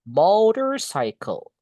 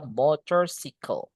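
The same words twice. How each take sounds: First: MOTORCYCLE slowly, "MOH-ter-SAI-kel"; model pronunciation. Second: MOTORCYCLE said "motor-SICK-el"; wrong pronunciation. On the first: Teacher modelling for learners, slow higher MOTORCYCLE with "sai-kel". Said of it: "Itu, guys". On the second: Teacher warning learners, MOTORCYCLE misread as "motor-sickle". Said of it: "Tapi gak boleh dibo". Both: Shown as a demonstration.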